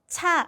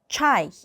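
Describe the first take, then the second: First: It is said as a flat Korean-style cha. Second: It is said as Russian chai with active jaw. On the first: The speaker calls it wrong. "차 하지 말고" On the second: The speaker calls it right. "아래턱을 조금 더 부지런하게 움직인다"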